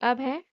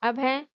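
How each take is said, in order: The two takes are said the same way.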